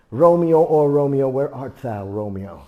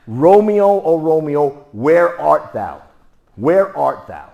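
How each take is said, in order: First: A hint of stage Juliet calling; Broadway Shakespeare voice. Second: Louder, higher, slow drawn-out call; hometown Juliet. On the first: Imitating Broadway actors, mild theatrical Romeo call. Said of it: "how they would say it if I spoke to Broadway's kind of people". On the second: Retold or imitated. Teacher showing hometown version, loud slow call. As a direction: call for Romeo loud and stretched. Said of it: "how would they say that where I was born".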